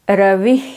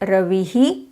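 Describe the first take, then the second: First: The word ends in a soft breath. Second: The word ends with an added hi syllable.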